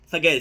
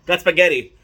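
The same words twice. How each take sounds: First: Said in the usual way. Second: Loud, proud reveal of spaghetti; excited announcement. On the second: Real, not acted. Announcing the dish with gusto.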